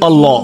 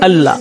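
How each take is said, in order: First: The doubled L is pronounced heavy and full. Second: The doubled L is pronounced light and thin. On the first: It shows respect for the name. "ভাব গম্ভীর স্বরে উচ্চারণ করি" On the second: It follows the ordinary rule for a doubled lam. "আমরা হালকাভাবে উচ্চারণ করি"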